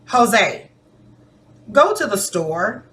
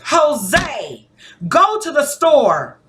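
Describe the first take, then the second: First: It is said in a gentle, polite tone. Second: It is said faster and louder, sounding urgent. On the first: A polite request is being made. "That sounds like I'm asking you politely" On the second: It must be done right now. "the inflection, the rate of speech, my tone, and my volume even went up"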